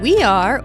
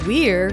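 First: The two words are said separately in full. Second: The two words are joined into one syllable. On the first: The speaker calls it wrong. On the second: The speaker calls it right.

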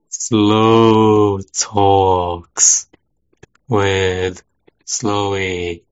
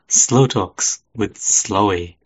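First: The phrase is said more slowly. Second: The phrase is said at a normal speed.

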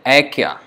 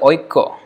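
First: The first vowel is a plain 'a' sound. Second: The first vowel is the diphthong 'oi'. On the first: This is the Hindi pronunciation. "But in Hindi they may say Aikya" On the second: This is the Bengali pronunciation. "But then in Bengali they say Oikko"

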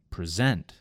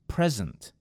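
First: The stress is on the second syllable. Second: The stress is on the first syllable. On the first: It is a verb. "in the second word, I moved the emphasis to the second syllable" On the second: It is a noun. "In the first word, it was on the first syllable"

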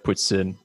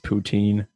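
First: The word is said with a French Canadian pronunciation. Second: The word is said with an American pronunciation. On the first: "I have like French Canadian roots, so it's like poutine" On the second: "I guess the American pronunciation is poutine"

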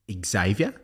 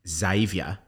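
First: The name begins with an ex sound. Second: The name begins with a plain z sound. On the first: The speaker calls it wrong. "being pronounced as Xavier" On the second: The speaker calls it right. "people whose name's Xavier"

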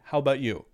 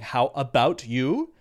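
First: The word about is shortened to bout. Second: The word about is said in full. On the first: It is a casual, informal way to ask. "They'll say very casually" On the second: It is the standard, careful form. "instead of saying"

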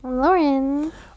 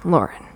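First: It is said in a normal voice. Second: It is said in a put-on deep voice.

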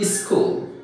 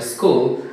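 First: An extra vowel is added before the word. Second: The word starts directly with the S sound. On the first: The speaker calls it wrong. "They have the habit of adding I in the beginning of the word, like this" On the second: The speaker calls it right.

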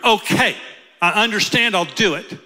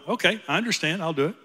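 First: The voice sounds angry. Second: The voice sounds happy. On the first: The speaker resents having to do it. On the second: The speaker is glad to do it.

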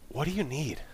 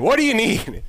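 First: It sounds caring and concerned. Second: It sounds impatient and annoyed.

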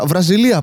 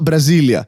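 First: The stress is on the third syllable. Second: The stress is on the second syllable. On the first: The country Brazil. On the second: The capital city Brasília.

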